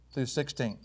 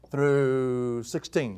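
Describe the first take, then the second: First: Said in the usual way. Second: Very slow, lower, stretched THROUGH before sixteen; drawn out. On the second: Real, not acted. Preacher giving the verse range, drawing out "through". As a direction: stretch "through" right out, then land "sixteen".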